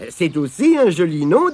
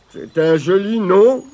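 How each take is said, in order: First: Gentle, friendly compliment; kindly. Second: Glum stranger's put-on voice; mumbling stranger. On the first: Tirondin complimenting the sad stranger's name, kindly. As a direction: say it kindly, to comfort. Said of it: "dit gentiment Tirondin". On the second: Stranger answering Tirondin's introduction, mumbling glumly. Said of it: "marmonna l'inconnu". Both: A narrator's reading.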